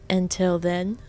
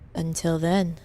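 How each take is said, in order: First: It sounds unfinished, leading on to more. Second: It sounds final, closing off the sentence. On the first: More words are about to follow. The speaker calls it wrong. "not a, a leading word" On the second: It is a goodbye. The speaker calls it right. "His parting words"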